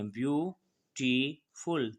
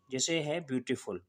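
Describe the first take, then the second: First: beautiful very slow, split into ब्यू-टी-फुल; slowed to show syllables. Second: Said in the usual way. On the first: Shown as a demonstration. Teacher to class, pulling beautiful apart into syllables, very slowly. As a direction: stretch beautiful out so each of its three syllables is heard. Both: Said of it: "तीन syllabic हैं".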